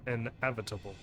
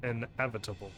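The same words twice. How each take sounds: First: The E sound is emphasized. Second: The E sound is emphasized.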